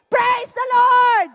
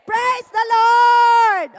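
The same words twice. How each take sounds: First: Loud, slow shout for all to echo; loud call to repeat. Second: Loud, drawn-out praise call; loud slow praise. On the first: Preacher calling the congregation to say it with him. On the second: Preacher leading the congregation in a loud praise. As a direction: lead the crowd in it. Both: Shown as a demonstration. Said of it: "say it with me".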